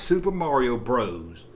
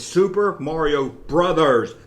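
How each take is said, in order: First: The last word is the short form 'bros'. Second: The last word is the full form 'brothers'. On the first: The speaker calls it wrong. "It's not Super Mario Bros" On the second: The speaker calls it right. "It's Super Mario Brothers"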